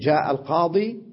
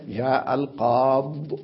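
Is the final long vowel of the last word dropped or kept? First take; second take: kept; dropped. First: The last word ends with a long 'ee' vowel. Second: The last word ends without a final 'ee' vowel. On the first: The speaker calls it right. "يقول جاء القاضي هكذا يقف" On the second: The speaker calls it wrong. "وإن وقف عليها يقف جاء القاض"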